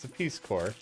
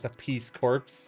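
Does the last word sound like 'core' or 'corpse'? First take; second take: core; corpse. First: The last word ends without a 'ps' sound. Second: The last word ends with a 'ps' sound. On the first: The speaker calls it right. "It's the Peace Corps" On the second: The speaker calls it wrong. "It's not the Peace Corps"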